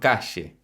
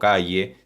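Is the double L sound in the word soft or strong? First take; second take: strong; soft. First: The double L is pronounced strongly. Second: The double L is pronounced softly. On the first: This is how it is said in the Río de la Plata. The speaker calls it right. "sino calle. La doble L, la Y y la R, consonantes muy fuertes acá" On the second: This is how it is said outside the Río de la Plata. The speaker calls it wrong. "No decimos calle"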